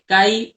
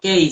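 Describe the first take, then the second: First: The name is said without English pronunciation. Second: The name is said with English pronunciation.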